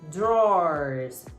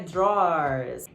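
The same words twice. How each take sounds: First: The word is said with one syllable. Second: The word is said with two syllables. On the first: The speaker calls it right. "É uma sílaba ... Tem som de O" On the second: The speaker calls it wrong. "A pronúncia não é drawers. ... não são duas sílabas"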